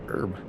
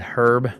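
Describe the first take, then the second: First: The word begins without any H sound. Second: The word begins with an audible H sound. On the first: "the H is silent, so it's herb" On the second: "I never really say it that way"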